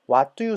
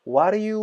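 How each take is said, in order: First: The d sound is pronounced clearly. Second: The t and d blur into a soft flap.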